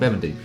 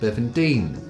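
First: The stress is on the first part. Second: The stress is on Dean. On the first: The speaker did not grow up in Brighton. The speaker calls it right. "put the emphasis on the first bit" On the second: The speaker grew up in Brighton. The speaker calls it wrong. "put the emphasis on the Dean"

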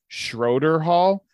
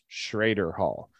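First: The first vowel sounds like 'oh'. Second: The first vowel sounds like 'ay'. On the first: It reads the name as it is spelled. The speaker calls it wrong. "spelled Schroeder Hall" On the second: It is the local way of saying the name. The speaker calls it right. "but it's pronounced Schrader Hall"

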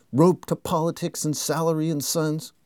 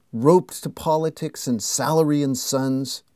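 Both takes have the same delivery.

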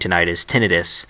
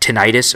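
First: Tinnitus is said the Midwestern way. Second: Tinnitus is said the non-Midwestern way.

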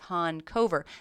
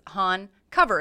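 First: The name sounds like honk over. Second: The second part sounds like the word cover. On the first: The speaker calls it right. "no, it's Han Cover. Think of it like I honk over here" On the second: The speaker calls it wrong. "it's Han Cover is what it looks like, C-O-V-E-R"

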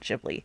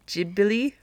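First: It is said in an American way, dropping a vowel. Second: It is said in a Japanese-sounding way. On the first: "the Americanized version of that is just dropping that second I" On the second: "the way that the Japanese spell it and pronounce it, it's more like Ghibli"

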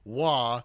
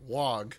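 First: The word ends in an open vowel, no g. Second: The word ends in a hard g sound. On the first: The speaker calls it right. "they pronounce it "wah"" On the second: The speaker calls it wrong. "and not "wog.""

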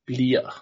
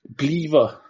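First: The middle v sound is dropped entirely. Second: The middle v sound is fully pronounced. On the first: This is how people actually say it. The speaker calls it right. "Everyone says "blia."" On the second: This is the formal dictionary form. The speaker calls it wrong. "that's like the dictionary form"

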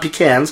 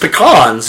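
First: The first syllable sounds like 'pee'. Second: The first syllable does not sound like 'pee'. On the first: The speaker calls it wrong. "not pecans. Sure. A pecan is what people peed in" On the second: The speaker calls it right. "it's pecans"

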